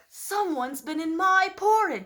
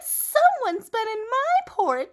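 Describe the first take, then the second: First: It is said in a Papa Bear voice. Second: It is said in a Baby Bear voice.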